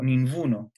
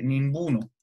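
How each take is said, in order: First: "ninguno" said as ninvuno; soft B/V sound. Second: "ninguno" said as nimbuno; B sound for G. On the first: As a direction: loosen the B in "ninguno" toward a V. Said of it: "algo así". ("ninguno" con una V suave en lugar de G) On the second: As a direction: close the lips for a B in "ninguno". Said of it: "a lo mejor sería". ("ninguno" con B en lugar de G) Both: Shown as a demonstration.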